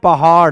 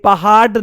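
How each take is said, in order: First: The final consonant is a quick retroflex flap. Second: The final consonant is a hard retroflex stop. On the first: The speaker calls it right. "हम क्या बोलते हैं? पहाड़। ... यहां पर अड़ का इस्तेमाल हो रहा है" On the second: The speaker calls it wrong. "ये पहाड़ नहीं है। ऐसे तो कभी नहीं बोलते।"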